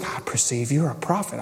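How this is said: It sounds humble and submissive.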